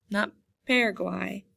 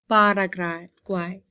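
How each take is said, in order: First: "Paraguay" with the English flat A, PAIR-uh-gwai; wrong Paraguay. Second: "Paraguay" slowly, with open Spanish A's, pah-rah-GWAI; slow, careful model of "Paraguay" with soft Spanish A. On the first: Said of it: "rather than saying Paraguay". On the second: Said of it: "the A in Spanish has a softer sound". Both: Shown as a demonstration.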